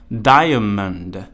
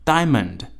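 First: The word is said with three syllables. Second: The word is said with two syllables. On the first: "有一些会配有发音的字典也会读作diamond" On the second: "native speaker 一般不会把那个diamond 里面的读出来，一般会念作diamond"

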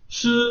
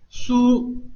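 First: The u vowel is cut short. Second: The u vowel is fully pronounced. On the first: The speaker calls it right. "这个u 的发音并没有发完就结束了" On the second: The speaker calls it wrong. "我们会读作苏，但是呢，其实这个假名呢，它不读苏啊"

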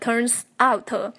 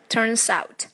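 First: The two words are said separately, not linked. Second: The two words are linked smoothly together. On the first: The speaker calls it wrong. "不要读成" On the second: The speaker calls it right. "连读"

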